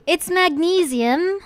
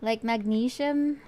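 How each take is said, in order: First: "magnesium" said as mag-NEE-zee-um with a z sound, high and loud; correct pronunciation. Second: "magnesium" said slowly as mag-NEE-shum with a sh sound; Philippine pronunciation. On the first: Streamer correcting her own pronunciation, loud and high. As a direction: stress the long "nee" and buzz the z in "magnesium". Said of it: "how do you pronounce it?". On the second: Streamer showing her old Philippine pronunciation. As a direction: say "magnesium" with sh in place of z. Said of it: "Philippine English pronunciation". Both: Shown as a demonstration.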